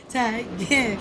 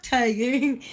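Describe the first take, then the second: First: "Tiger" split into two separate syllables; careful two-part "Tiger", final r dropped; attempted correct pronunciation. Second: "tiger" as the plain English word; English-sounding "tiger"; wrong pronunciation. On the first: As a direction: say "Tiger" as "tai... geh", lower. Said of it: "Something like that". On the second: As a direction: say "tiger" as one English word, stretched slightly. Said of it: "not tiger". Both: Shown as a demonstration.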